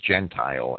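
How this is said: The name is said with an English pronunciation. "That's how the English would pronounce it"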